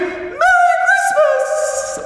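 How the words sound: It is said loudly, in a celebrating way.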